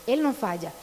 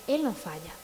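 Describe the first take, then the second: First: Said in the usual way. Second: Soft, lower "Él no falla". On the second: Shown as a demonstration. Preacher softly assures parents "Él no falla", lower and quieter. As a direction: drop "Él no falla" lower and softer. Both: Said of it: "repeated with contrast".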